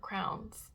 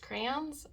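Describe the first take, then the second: First: It is said with one syllable, like crown. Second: It is said with two syllables, cray-on.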